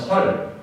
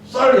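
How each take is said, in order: First: The first consonant is a plain s. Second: The first consonant is a tense s. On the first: The speaker calls it wrong. "경상도 사람들 ... 발음이 안 되는 부분이 있거든요" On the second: The speaker calls it right. "쌀 해보라면"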